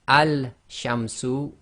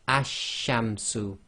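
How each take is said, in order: First: The article keeps a clear L before sh. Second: The L merges into a doubled sh sound. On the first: The speaker calls it wrong. "instead of saying al-shamsu" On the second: The speaker calls it right. "we will have to read this as ash-shamsu"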